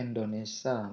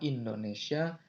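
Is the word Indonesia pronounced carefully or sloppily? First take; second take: sloppily; carefully. First: The word is pronounced with altered, careless sounds. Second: The word is pronounced with its standard sounds. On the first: The speaker calls it wrong. "ada banyak sekali orang yang melafalkan ... menjadi Indonesia" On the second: The speaker calls it right. "melafalkan kata Indonesia"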